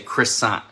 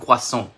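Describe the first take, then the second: First: The word is pronounced with an English accent. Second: The word is pronounced with a French accent. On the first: The speaker calls it wrong. "we say croissant" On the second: The speaker calls it right. "but in French it's un croissant"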